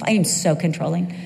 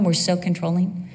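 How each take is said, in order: First: "am" leaned on as a confession, tune rising; stress on AM. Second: "we're" leaned on, tune rising; stress on WE'RE. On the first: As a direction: hit "am" to own it yourself. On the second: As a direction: push the word "we're" to blame all women. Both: Shown as a demonstration. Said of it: "okay, I'll speak for myself".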